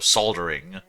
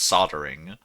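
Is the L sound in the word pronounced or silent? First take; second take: pronounced; silent. First: The L sound is clearly pronounced. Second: The L sound is silent. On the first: The speaker calls it wrong. "because there's an L in there, so you just go soldering" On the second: The speaker calls it right. "it's not soldering, it's soldering"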